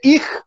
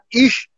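First: The word ends with a rough kh sound. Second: The word ends with a soft sh sound. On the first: This is how people in the south say it. "یه جنوب میری میشه ایخ" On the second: This is how people in Berlin say it. "شما توی برلین اگر نگاه بکنی یه جور صحبت میکنن، ایشو میگن ایش"

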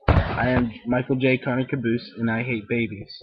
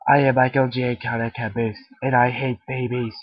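First: It is said in his ordinary own voice. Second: It is said in a put-on Caboose voice.

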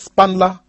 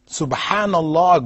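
First: The phrase is squeezed into two quick syllables. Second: The phrase is said with all its syllables. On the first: The words lose their meaning. The speaker calls it wrong. "So they're saying Spanla" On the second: The words carry their meaning of glorifying God. The speaker calls it right. "Subhanallah, glory be to Allah, has a meaning"

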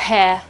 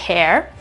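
First: It is said with no final r sound. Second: It is said with a final r sound. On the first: "loro non pronunciano la R assolutamente" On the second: "in American English potete trovare hair"

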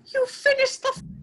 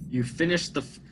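First: It is said in a put-on female voice. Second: It is said in his normal voice.

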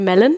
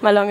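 First: The name sounds like the word melon. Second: The name sounds like Malone, ending in -lone. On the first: The speaker calls it wrong. "Normalerweise sagen die Leute Melon, Was nicht richtig ist" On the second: The speaker calls it right. "Malone ist richtig"

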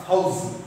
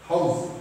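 The two takes are said the same way.

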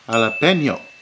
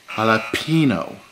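First: The word is said with a Spanish-style pronunciation. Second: The word is said with an anglicized pronunciation. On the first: The speaker calls it right. "It's pronounced jalapeno" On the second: The speaker calls it wrong. "not jalapeno"

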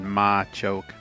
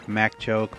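First: The first syllable is not said as 'Mac'. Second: The first syllable is said as 'Mac'. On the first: This is the other person's pronunciation. "I think it is how you said it" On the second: This is the speaker's own habitual pronunciation. "I always call them Mac"

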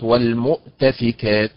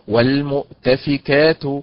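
First: The stress falls on a different syllable. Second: The stress falls on the syllable ka. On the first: The speaker calls it wrong. "وليست" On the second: The speaker calls it right. "والمؤتفكات وليست والمؤتفكات هكذا"

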